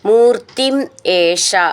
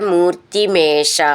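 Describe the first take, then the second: First: The two words are said separately. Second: The two words are joined into one.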